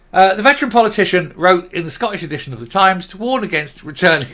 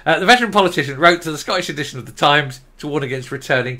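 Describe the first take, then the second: First: Fighting back a laugh, louder; reading while trying not to crack up; holding back laughter. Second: Said in the usual way. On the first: Real, not acted. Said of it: "I was trying to keep a straight face and I couldn't". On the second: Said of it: "I was trying to keep a straight face".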